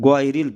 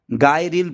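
First: গয়রিল with a short "go"; correct short vowel. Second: গায়রিল with a long open "gaa"; wrong long a. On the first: Teacher gives the correct গয়রিল, short "go". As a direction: say গয়রিল with no long a. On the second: Teacher shows the wrong গায়রিল, long "gaa". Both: Shown as a demonstration. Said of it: "গায়রিল না পড়ে".

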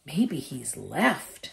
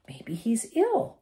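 First: Said in the usual way. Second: Higher, slower, a hopeful lift. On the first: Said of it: "said Harry". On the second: Acted. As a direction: say it like you wish it were true. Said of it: "said Ron hopefully".

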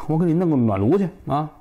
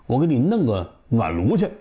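First: Said in the usual way. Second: 弄 picked out against the rest of the offer; stress on 弄. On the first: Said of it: "你这个做贼的说话就是啊，痛快". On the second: Shown as a demonstration. Narrator points out the thief's word choice, stress on 弄. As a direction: lean on the word 弄, setting it apart. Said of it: "他可不说，“我给你买个去。".

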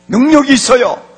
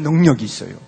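First: Loud, higher-pitched proclamation; emphatic repeat. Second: Said in the usual way. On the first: Real, not acted. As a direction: drive the claim home at full voice.

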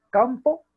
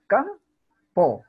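First: Said in the usual way. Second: "Campo" split into cam, pause, po, louder; two syllable beats. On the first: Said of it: "una palabra que está silabeada en dos". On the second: Shown as a demonstration. Teacher shows students the two syllables, "Campo" split as cam-po. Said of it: "Dos golpes de voz".

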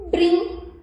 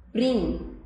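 First: Higher, louder, drawn out with a rising end; blending the sounds. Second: Said in the usual way. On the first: Shown as a demonstration. Teacher to children, blending two sounds into Brim, rising. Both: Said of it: "Juntando esses dois sons, fica como?".

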